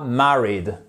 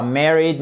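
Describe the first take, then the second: First: "married" with a short A as in "cat"; "married" with a short open A in the first syllable; British short A. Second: "married" with an E as in "merry"; "married" with open E in the first syllable; American pronunciation. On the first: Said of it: "Le A se prononcera comme un A court". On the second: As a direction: say "married" the American way, MEH-rid. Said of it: "notamment en British English, ça sera pas married". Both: Shown as a demonstration.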